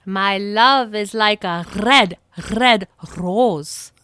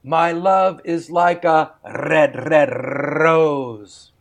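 First: Scottish accent. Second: Rolled Scottish burr, slow and lilting; a light Scottish accent, read slowly. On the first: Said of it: "see if you can match the tone and sound of my voice". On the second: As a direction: recite it in a Scottish accent like Robert Burns. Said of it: "add Robert Burns' Scottish burr". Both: Shown as a demonstration.

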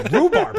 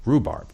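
First: "Rhubarb." pitched much higher and louder, insisting; mock-insistent "Rhubarb." thrown out high and loud; adamant. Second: Said in the usual way. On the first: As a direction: insist on "Rhubarb." like a password she won't drop. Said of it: "she's kind of a little, like, adamant about". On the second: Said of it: "adamant about".

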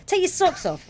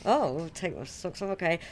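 First: High-pitched acted house-rule order; host giving orders. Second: Softer acted reply, going along; compliant house guest. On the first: Host telling a visitor about socks, high bossy order. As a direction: play the host, pitched well up. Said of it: "they say". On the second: Guest answering the host about socks, mildly compliant reply. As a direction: play the guest meekly agreeing. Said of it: "So you're like".

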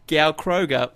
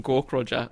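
First: Gaukroger said as "Gow-kroh-ga"; the wrong "Gow-kroh-ga" reading of Gaukroger; mispronounced name. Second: Gaukroger said as "Gawk-rodger"; the corrected "Gawk-rodger" reading of Gaukroger; intended pronunciation. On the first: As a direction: misread Gaukroger with GOW and a hard g. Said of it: "if someone says Gaukroger". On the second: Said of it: "they probably mean Gaukroger". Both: Shown as a demonstration.

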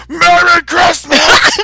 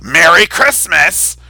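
First: Screamed, much higher and louder, very slow; furious mob member shrieking Merry Christmas; werewolf roar. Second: Mock angry mob, louder and slow; slow, insistent mock shout; louder Merry Christmas. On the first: Retold or imitated. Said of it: "metamorphing into a werewolf". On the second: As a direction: bark it back like an insistent zealot. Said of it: "And they're like".

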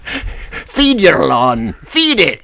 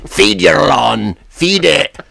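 First: Very slow mock Scottish slogan, rising on the last "feed it"; lightly voiced Scottish spokesman; Scottish accent. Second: Slow mock Scottish ad voice; lightly voiced Scots lawn guy; a hint of a Scottish spokesman, drawn out; Scottish accent. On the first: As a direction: imitate the Scots lawn guy on request. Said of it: "Do it again". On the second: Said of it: "generic Scotsman".

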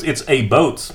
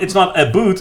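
First: "boat" with a long oh vowel; Canadian "boat" demo. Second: "boot" held up as the wrong vowel, pitched higher; corrected pronunciation. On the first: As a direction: land on "boat" with an oh, as the correction. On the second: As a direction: say "boot" with an oo, rejecting it. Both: Shown as a demonstration. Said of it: "No, they say boats".

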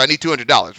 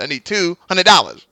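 First: Said in the usual way. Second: Sly mocking repeat of the price. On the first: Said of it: "He coulda easily just gone". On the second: Podcast host imitating the guy mocking the cameraman: mild mockery. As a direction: needle him as you quote the demand. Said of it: "mocking the guy".

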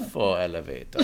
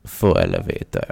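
First: A hint of Bond villain purring "Faux elevator"; lightly sinister villain read. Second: Much lower, menacing "Faux elevator"; deep evil-villain purr; Bond villain. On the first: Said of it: "tapping my fingers as the evil villain does in every Bond film". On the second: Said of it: "I need to do it like I". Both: Shown as a demonstration.

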